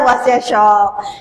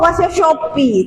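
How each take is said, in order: First: The name ends with a 'p' consonant sound. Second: The name ends with an 'ee' vowel sound. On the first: The speaker calls it right. "sebutan dia adalah wasiat Shop" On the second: The speaker calls it wrong. "mereka sebut wasiat Shopee"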